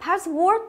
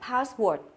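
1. Âm điệu ở từ password đi lên. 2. Âm điệu ở từ password đi xuống. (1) "người miền Bắc là hay có xu hướng là lên giọng là sai" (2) "chúng ta phải luôn xuống giọng nhé"

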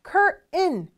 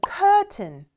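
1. 미국식 발음이에요. t가 비음처럼 나요. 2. 영국식 발음이에요. t가 더 분명하게 나요. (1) "그래서 커튼의 그 T 발음은 은 소리가 나요. curtain, curtain 이렇게 발음을 주로 북미권에선 하고요" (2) "아마 영국 가시면 curtain, curtain 이렇게 발음하니까 조금 더 우리하고 비슷하네요"

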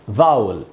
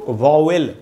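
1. शब्द का अंत घटी हुई 'ul' ध्वनि से होता है। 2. शब्द का अंत स्पष्ट 'wel' ध्वनि से होता है। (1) "यानी इसको हम पढ़ेंगे वाउल" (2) "इसलिए हम इसको वॉवेल पढ़ते हैं"

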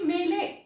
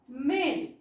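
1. L नंतर एक अतिरिक्त स्वर ध्वनी उच्चारला जातो. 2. शब्द L ध्वनीने संपतो.

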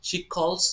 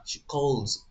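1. শেষ শব্দটি একটি হিসিং s ধ্বনিতে শেষ হয়। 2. শেষ শব্দটি একটি গুঞ্জনধর্মী z ধ্বনিতে শেষ হয়। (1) "না" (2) "জ সাউন্ড"

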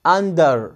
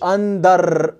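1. الـ r في الآخر ناعم ولسانك ملفوف لفوق. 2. الـ r في الآخر متنقّط زي الراء العربية. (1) "علق لسانك" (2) "ما تقوليش under"

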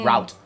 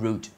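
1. ออกเสียงเหมือน 'rowt' สัมผัสกับ out 2. ออกเสียงเหมือน 'root' สัมผัสกับ boot (1) "ในที่อเมริกามันอาจจะมีบางสำเนียงพี่เคยได้ยินจะเป็น" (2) "แต่ที่ UK เขาจำว่า"

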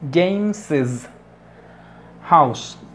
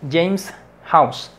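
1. Después de James se dice una sílaba extra. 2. James se dice sin sílaba extra. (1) "So this is for spoken English" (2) "Solo para el inglés escrito"

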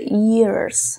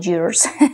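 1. La palabra empieza con un 'ee' cerrado. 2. La palabra empieza con un 'ya' abierto. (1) "Pero debe ser years, ¿ok? Como una I de iguana" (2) "se me sale y digo years"

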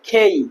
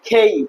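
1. শ্বাসযুক্ত k ও গড়িয়ে যাওয়া 'ei' স্বর। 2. শ্বাসযুক্ত k ও গড়িয়ে যাওয়া 'ei' স্বর।

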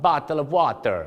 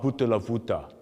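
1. พูดด้วยสำเนียงฟิลิปปินส์ 2. พูดด้วยสำเนียงแอฟริกัน (1) "ชาวฟิลิปปินส์ครับ" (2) "ชาวแอฟริกาครับกลายเป็นต่อเต่า"

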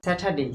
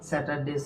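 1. t ধ্বনিটি নিঃশ্বাসযুক্ত, আকাঙ্ক্ষিত। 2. t ধ্বনিটি সাধারণ, অনাকাঙ্ক্ষিত। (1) "এটার উচ্চারণ হবে কি স্যাটারডে" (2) "আমরা এমনি সচরাচর যেভাবে উচ্চারণ করি"

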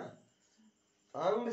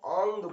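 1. स्वर खुला 'a' ध्वनि है। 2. स्वर गोलाकार अनुनासिक 'au' ध्वनि है। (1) "अंग से ज्यादा" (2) "इसको औंग बोला जाएगा"

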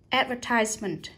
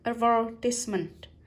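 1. Trọng âm rơi vào âm tiết thứ ba. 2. Trọng âm rơi vào âm tiết thứ hai. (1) "Và đây là nhấn vào ties" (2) "nhấn vào ver này"

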